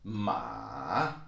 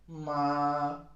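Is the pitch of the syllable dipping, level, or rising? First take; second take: dipping; level. First: The pitch starts mid, dips, then rises. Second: The pitch starts high and stays high. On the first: "it starts a little bit in the middle, then it goes down into the valley, and then it comes up again" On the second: "it starts high and it keeps on being high"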